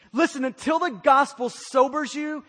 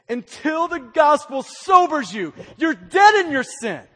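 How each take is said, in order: First: Said in the usual way. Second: Louder, punched repeat of the phrase; preacher raising his voice on the repeat; shouted sermon line. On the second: Real, not acted. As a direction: shout it the second time to drive it in.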